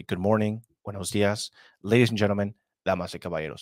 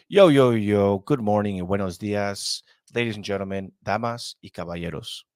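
First: Said in the usual way. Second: Lucha libre announcer. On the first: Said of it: "which is just essentially". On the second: Shown as a demonstration. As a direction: hype bilingual greeting. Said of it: "I'm gonna say".

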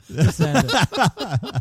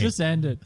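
First: Laughing. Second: Said in the usual way. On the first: Real, not acted. Repeats phrase, laughing, drawn out.

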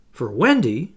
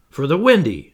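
First: Louder, incredulous question; aghast. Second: Louder, matter-of-fact statement; firm answer. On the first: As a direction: echo it back in disbelief. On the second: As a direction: state it firmly, as the obvious answer. Curly answers John matter-of-factly. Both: A narrator's reading.

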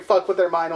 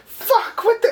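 First: Said in the usual way. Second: Much higher, cracking mock sob; freaking out, near crying. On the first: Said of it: "he just keeps repeating". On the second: Chucky repeating himself while stabbing, cracking into sobs. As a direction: voice breaking into a fake cry. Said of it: "Chucky's freaking out again".

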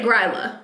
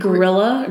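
First: "Gryla" said GRY-la, one syllable before the L; "Gryla" with a long "eye" sound, then "la"; correct pronunciation. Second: Gryla said as "Gorilla" with an extra middle syllable; "Gorilla?" for Gryla, two vowels before the L; mispronounced Gryla. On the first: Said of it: "I would say Gryla". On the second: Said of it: "you did not say it correctly". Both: Shown as a demonstration.

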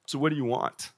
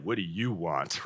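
First: Said in the usual way. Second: Low, slow and flat-toned, annoyed; curt, cold reading. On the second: Shown as a demonstration. Pastor showing how the verse is often misread, coldly. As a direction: read it like an irritated brush-off. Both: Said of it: "sometimes we read that and it's like".

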